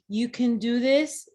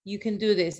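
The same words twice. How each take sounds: First: "you can do this" drawn out slowly, rising on "this"; slow rising encouragement. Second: "You can do this" at normal pace, stressed on "do", falling to a close; firm falling repeat. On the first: Urging the group she coaches, slow and rising. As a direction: stretch it and lift "this" like a promise. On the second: Repeating her point to the group, firm and falling. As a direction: settle it, press on "do". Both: Shown as a demonstration.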